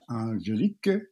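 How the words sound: The name is said with a French pronunciation. "In French, it's pronounced Angelique"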